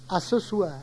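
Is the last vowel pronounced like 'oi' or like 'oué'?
oi. It ends in 'oi' with a final R. This is the standard form.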